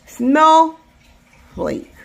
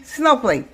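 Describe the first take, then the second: First: "Snowflake" in two slow, separate beats; split into syllables. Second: "snowflake" rushed as if one syllable; hurried, unbroken "snowflake"; too fast. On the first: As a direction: hold "Snow", pause, then say "flake". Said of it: "Two syllables". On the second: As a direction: run "snowflake" together in one quick beat. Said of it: "One only". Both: Shown as a demonstration.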